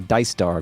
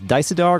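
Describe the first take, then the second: First: The name is said with two syllables. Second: The name is said with three syllables. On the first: "two syllables" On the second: "three syllables"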